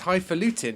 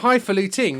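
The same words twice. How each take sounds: First: The word ends without a final g sound. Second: The word ends with a final g sound. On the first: The speaker calls it right. "It doesn't have a G at the end. It's highfalutin" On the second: The speaker calls it wrong. "It's not highfalutin"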